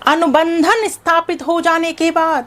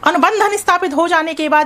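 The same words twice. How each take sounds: First: The phrase is spoken at a slow pace. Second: The phrase is spoken at a fast pace. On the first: "मैं और धीरे बोलती हूं अब" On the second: "पहले speed से बोल रही हूँ"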